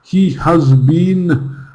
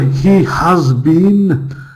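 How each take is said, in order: First: He and has are said as full separate words. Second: The same.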